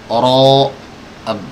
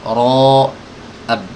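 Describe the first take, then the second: Both takes have the same delivery.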